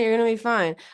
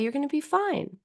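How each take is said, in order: First: It is said in a harsh, uncomforting tone. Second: It is said in a warm, soothing tone. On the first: The words do not comfort the listener. The speaker calls it wrong. "who would feel better with with those words in that tone?" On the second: The words comfort the listener. The speaker calls it right. "You can use the same words in a different tone"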